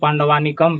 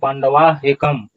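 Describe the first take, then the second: First: The words are run together as 'pandavanikam'. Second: The words are said apart as 'pandava ekam'. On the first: The speaker calls it wrong. "ऐसा उच्चारण इसका नहीं होगा" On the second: The speaker calls it right. "उच्चारण होगा दृष्टवा तु पांडवा एकम, यहाँ निकम नहीं होगा"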